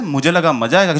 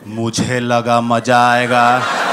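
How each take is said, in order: First: It is said plainly and sincerely. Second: It is said in a mocking, sarcastic tone. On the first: The speaker means it as a real answer. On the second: The words are thrown back to mock the speaker.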